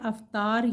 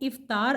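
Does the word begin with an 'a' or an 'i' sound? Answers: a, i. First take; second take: a; i. First: The word begins with an 'a' sound. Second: The word begins with an 'i' sound. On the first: The speaker calls it wrong. "यानी अलिफ के ऊपर ज़बर डालते हैं" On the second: The speaker calls it right. "सही अदायगी है इफ़्तार, अलिफ के नीचे ज़ेर है"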